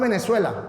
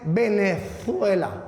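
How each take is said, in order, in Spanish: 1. La z se pronuncia como una s simple. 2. La z se pronuncia como un sonido distinto. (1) "decimos es Venezuela" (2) "que se pronuncie la Z"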